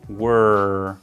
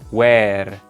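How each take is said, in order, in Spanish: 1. La vocal es cerrada, casi solo la W y luego la R. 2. La vocal es abierta, como en la palabra where. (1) "sino were" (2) "no se pronuncia where"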